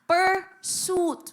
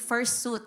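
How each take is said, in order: First: The word begins with a p sound. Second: The word begins with an f sound. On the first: The speaker calls it right. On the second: The speaker calls it wrong.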